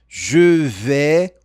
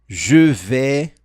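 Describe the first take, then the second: The two takes are said the same way.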